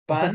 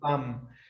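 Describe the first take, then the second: First: The word ends with an N sound. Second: The word ends with an M sound. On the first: "they don't pronounce the N" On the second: "Everything is M"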